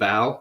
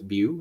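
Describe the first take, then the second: First: The last syllable ends in an 'ow' sound. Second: The last syllable ends in an 'oo' sound. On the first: The speaker calls it wrong. "I was calling him Yun Bao, which is wrong" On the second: The speaker calls it right. "It's Bu"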